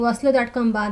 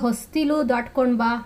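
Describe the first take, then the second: First: The first word drops a middle syllable. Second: The first word keeps all its syllables. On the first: "ಹೊಸ್ಲು ದಾಟ್ಕೊಂಡ್ ಬಾ ಅಂತ ಹೇಳ್ತೀವಿ" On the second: "ಹೊಸ್ತಿಲು ದಾಟ್ಕೊಂಡ್ ಬಾ ಅಂತ ಹೇಳ್ತೀವ? ಇಲ್ಲ"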